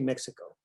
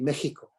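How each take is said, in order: First: It is said with an English pronunciation. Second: It is said with a Spanish pronunciation. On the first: "But in English, we say Mexico" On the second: "if you were to read it in Spanish, it would be Mexico"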